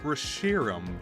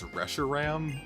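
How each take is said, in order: First: The middle syllable 'shi' is stressed. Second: The middle syllable 'shi' is not stressed. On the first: The speaker calls it right. "flows so nicely. Plus, it puts the emphasis on the Shiro" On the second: The speaker calls it wrong. "such an ugly way to pronounce it. So clunky"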